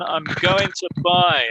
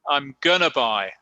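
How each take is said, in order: First: It is said with the two words going to. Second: It is squeezed into the single word gonna. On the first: It is the normal, more standard form. "este no es el más normal" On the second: It is very informal speech. "simplemente dicen, I'm gonna"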